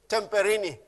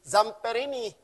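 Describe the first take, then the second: First: The name begins with a t sound. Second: The name begins with a z sound. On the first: The speaker calls it wrong. "But I said Temperini" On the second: The speaker calls it right. "it's Italian, so it's Zamperini"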